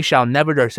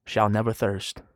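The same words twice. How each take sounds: First: "shall never thirst" read out raised and forceful; emphatic verse reading. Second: "Shall never thirst" low and soft, settled; quiet final answer. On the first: Preacher reading Jesus' promise aloud, "shall never thirst" proclaimed. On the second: Preacher answering his own question, "Shall never thirst" low and final. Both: Shown as a demonstration.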